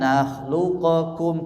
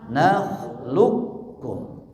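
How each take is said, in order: First: A vowel separates the q and k sounds. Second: The q merges straight into a doubled k. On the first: The speaker calls it wrong. "Bacanya jangan" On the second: The speaker calls it right.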